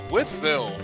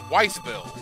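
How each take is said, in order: First: The name is said in the standard way. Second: The name is said the way outsiders say it. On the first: The speaker calls it right. "That's pronounced Withville" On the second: The speaker calls it wrong. "everybody that I've ever heard that's never lived there... the first thing they say is Wytheville"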